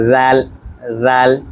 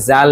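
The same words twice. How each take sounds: First: জাল with the tongue between the teeth; correct zal. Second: জাল said the Bengali way; plain জাল like the common mistake; wrong zal. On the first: Teacher showing students the right way, lisped জাল. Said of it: "বলতে হবে". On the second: Teacher showing students the wrong way, Bengali জাল. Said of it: "বলা যাবে না". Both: Shown as a demonstration.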